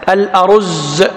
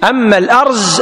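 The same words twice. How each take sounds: First: الأرز with open a, u on the r and doubled z: al-aruzz; correct pronunciation. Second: الأرز said as al-arz, one syllable after the r, higher; contrasting word. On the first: Teacher giving the correct reading of rice. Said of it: "بفتح الهمز وضم الراء والزاي". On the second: Teacher contrasting the cedar word with rice. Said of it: "الأرز اسم شجرة". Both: Shown as a demonstration.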